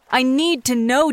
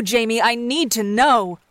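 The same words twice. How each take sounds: First: Slow, pleading mock panic; fake hysteria. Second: Slow mock-desperate demand; fake hysteria. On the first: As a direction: drag out the need, playfully desperate. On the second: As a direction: lean on the final know, hammed up. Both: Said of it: "in mock hysteria".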